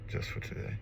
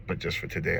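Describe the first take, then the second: First: Soft whispered echo of the slogan. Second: Said in the usual way. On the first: Shown as a demonstration. Sober man whispering his daily slogan. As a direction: breathe it back to yourself.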